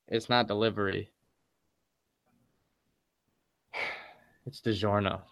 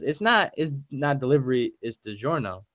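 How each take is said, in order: First: There is a long pause before the second part. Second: There is only a short pause before the second part. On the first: The speaker calls it right. "It really should be" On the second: The speaker calls it wrong. "he said there needs to be a longer pause between"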